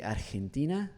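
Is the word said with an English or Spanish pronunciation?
Spanish. The word is said with Spanish pronunciation. The speaker comes across as a non-native speaker. "like you were speaking Spanish"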